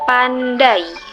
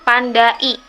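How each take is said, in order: First: The final vowels glide together without a break. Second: The final vowels are said as separate sounds. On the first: The speaker calls it right. "pembacaannya seolah memakai huruf Y" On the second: The speaker calls it wrong.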